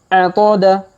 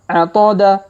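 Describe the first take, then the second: Both takes have the same delivery.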